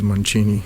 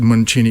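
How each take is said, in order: First: The name is said with an Italian pronunciation. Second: The name is said with a Bulgarian pronunciation. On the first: "the Italian pronunciation is Mancini" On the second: "I pronounce it Mancini because I'm Bulgarian"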